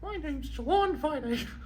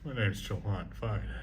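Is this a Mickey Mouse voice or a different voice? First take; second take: Mickey Mouse; different voice. First: It is said in a Mickey Mouse voice. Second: It is said in a non-Mickey voice.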